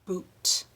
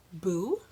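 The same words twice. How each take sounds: First: BOOT with a separate, crisp released T; clear final T. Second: BOO held long with an open vowel ending. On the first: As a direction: tap out the t at the end of boot. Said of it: "There's a sound on the end of boot". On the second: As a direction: say boo with no consonant at the end. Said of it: "Did you hear the difference?". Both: Shown as a demonstration.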